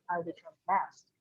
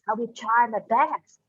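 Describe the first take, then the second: First: It is said flatly without special stress. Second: The most important word is strongly stressed.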